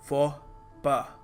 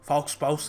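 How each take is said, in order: First: The final x and s sounds are silent. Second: The final x and s sounds are pronounced. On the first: The speaker calls it right. "याद रखिएगा" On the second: The speaker calls it wrong. "नहीं है"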